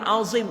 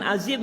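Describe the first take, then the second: First: The z is a heavy, emphatic z sound. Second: The z is a plain, light z sound. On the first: The speaker calls it right. "azim itu za" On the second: The speaker calls it wrong. "dia bukan azim"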